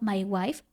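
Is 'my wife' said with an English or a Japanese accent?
English. It is said with plain English pronunciation. "diciendo my wife"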